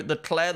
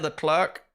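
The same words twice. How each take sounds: First: Leclerc said as luh-CLAIR; French Leclerc. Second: Leclerc said as luh-CLERK; English Leclerc. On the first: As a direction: silent final c on Leclerc. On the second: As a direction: sound the final k of Leclerc. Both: Shown as a demonstration. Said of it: "Well, that's the thing".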